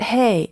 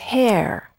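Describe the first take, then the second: First: It is said in a Southern accent. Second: It is said in a standard, non-Southern accent. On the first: The speaker calls it wrong. "is not hay, as in hair" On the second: The speaker calls it right. "it's hair"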